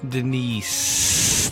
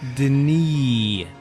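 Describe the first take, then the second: First: The name ends with an audible S sound. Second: The name ends without an S sound. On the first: "There's the S there. Do you hear it?" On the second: "the proper proper pronunciation of his name"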